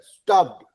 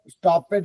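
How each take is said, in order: First: The ending is just a d sound. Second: The ending is said as an extra syllable. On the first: The speaker calls it right. "ईडी से एक ड जुड़ जाता है" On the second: The speaker calls it wrong. "ऐसा नहीं होता है"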